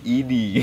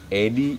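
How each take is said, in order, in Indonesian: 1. Kata itu diawali dengan vokal 'i'. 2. Kata itu diawali dengan vokal 'e'. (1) "ketika E jadi I" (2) "ketika E jadi I"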